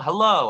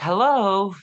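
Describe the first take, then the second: First: The greeting sounds cold and reluctant. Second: The greeting sounds warm and eager. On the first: The speaker does not want to talk to the person. "I don't want to talk to you" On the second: The speaker is glad to talk to the person. "that feels like you know uh, I love I love this guy. I want to talk to him"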